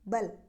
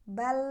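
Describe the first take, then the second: First: The final L is cut off abruptly. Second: The final L sound flows on briefly. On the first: The speaker calls it wrong. "tidak boleh" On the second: The speaker calls it right. "alirkan suara"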